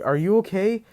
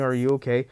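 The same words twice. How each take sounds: First: High, concerned rise on okay; worried question. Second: Said in the usual way. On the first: Retold or imitated. Friends ask the laughing Deku, high and worried. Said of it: "they're like". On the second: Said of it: "his friends are like".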